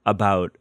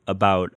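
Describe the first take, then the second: No difference in how they are said.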